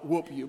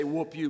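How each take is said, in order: First: "Whoop" with a country twang. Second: Said in the usual way. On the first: Retold or imitated. Preacher imitating the radio prankster's "Whoop you". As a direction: say "Whoop you" the way Roy D. did, hushed. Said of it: "he'd say something sort of like". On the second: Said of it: "he wouldn't say, "Whoop you".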